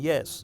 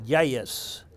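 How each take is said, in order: First: It is said plainly, without a drawl. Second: It is said in a drawn-out southern drawl.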